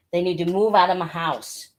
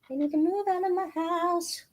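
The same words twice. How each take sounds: First: Said in the usual way. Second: Much higher, softer, squeaked out; high squeaky mock plea. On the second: Shown as a demonstration. Seller pleading comically to viewers about the books, high squeak. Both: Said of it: "repeats it differently".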